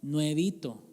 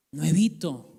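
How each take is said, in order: First: Said in the usual way. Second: Nuevito said louder with a firm fall; stress on Nuevito. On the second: Shown as a demonstration. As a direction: land Nuevito with pride. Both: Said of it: "Sabe cómo salía yo".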